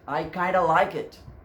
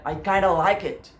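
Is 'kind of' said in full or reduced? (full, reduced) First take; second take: reduced; reduced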